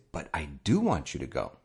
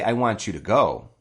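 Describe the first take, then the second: First: Emphatic DO in a sincere assurance; stress on DO. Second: Said in the usual way. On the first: Shown as a demonstration. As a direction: DO leaned on, rest falling away. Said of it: "to emphasize that I really". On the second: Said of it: "I could say".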